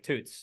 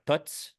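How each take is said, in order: First: Toots with a long oo, as in boots; misread pronunciation of Toots. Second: Toots with a short oo, as in foot; spoken-slang pronunciation of Toots. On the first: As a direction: say Toots as it looks written, long oo. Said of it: "looks at you saying Toots". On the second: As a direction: say Toots to rhyme with puts. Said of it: "you gotta say it that way". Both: Shown as a demonstration.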